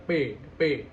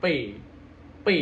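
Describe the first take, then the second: First: Letter P said "pe" without the smile, indistinct; unclear P. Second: Letter P said "pe" with lips pulled into a smile; smiling P. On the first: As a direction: leave P slack and unclear. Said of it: "nggak bakal jelas juga". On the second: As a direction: stretch P towards a smile, crisply. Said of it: "ada tarikan antara mulut ke senyum". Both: Shown as a demonstration.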